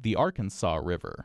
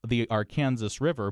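First: It uses the national pronunciation of Arkansas. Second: It uses the local pronunciation of Arkansas. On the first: The speaker is talking to a nationwide audience. "for a national audience, I actually changed it" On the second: The speaker is talking to a local audience. "Locally, I pronounced it"

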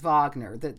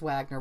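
First: It begins with a V sound. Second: It begins with an English W sound. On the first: The speaker calls it right. "but it is Wagner. That's just how you pronounce the W in German" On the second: The speaker calls it wrong. "I thought it was Wagner when I read it"

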